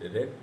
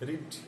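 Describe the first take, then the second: First: The vowel is short, like 'red'. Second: The vowel is long, like 'reed'. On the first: It is the past participle form. "তার third form রিড, রেড" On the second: The action happens in the present. "রিড বলছি, রিডটা present tense"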